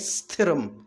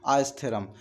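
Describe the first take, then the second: First: The word starts directly with the consonant cluster. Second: An extra vowel sound comes before the word. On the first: The speaker calls it right. "तो इसको हम कहेंगे स्थिरम" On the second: The speaker calls it wrong. "कई बार हम कहते थे अस्थिरम"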